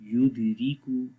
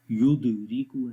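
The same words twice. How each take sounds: First: युदरिकू read with weak kalkala on the द, falling at the end; correct reading. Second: युदरिकू read as a flat wrong version with a rise at the end. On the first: Teacher showing students the correct reading, calm and falling. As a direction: read युदरिकू the right way, gently. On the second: Teacher demonstrating the wrong way, rising. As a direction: show the students how युदरिकू should not be read. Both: Shown as a demonstration. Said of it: "युदरिकू ऐसे नहीं पढ़ेंगे".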